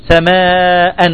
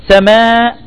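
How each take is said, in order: First: "سماء" with long aa, then -an; tanween with fatha. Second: Said in the usual way. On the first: Shown as a demonstration. Teacher demonstrates tanween on the hamza, "سماء" ending -an. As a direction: say "سماء" as samaa-an. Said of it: "عندما تنون بالفتح". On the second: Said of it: "تقول".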